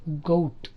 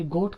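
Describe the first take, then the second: First: గౌట్ as "go-oot"; two vowel sounds in గౌట్; diphthong glide. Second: గోట్ with a pure long o; single vowel. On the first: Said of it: "గౌట్ అనాలి". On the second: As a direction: say గోట్ as "goht", no glide. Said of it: "కాదు యాక్చువల్గా". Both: Shown as a demonstration.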